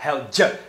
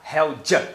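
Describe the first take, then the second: First: The d becomes j and 'your' is reduced. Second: The d becomes j and 'your' is reduced.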